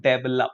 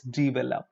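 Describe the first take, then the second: First: "develop" as dev-el-op; wrong develop. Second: "develop" as di-vel-op, softer; correct develop. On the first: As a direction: say "develop" with deh. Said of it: "It's not". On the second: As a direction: say "develop" starting with di. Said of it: "It's not develop". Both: Shown as a demonstration.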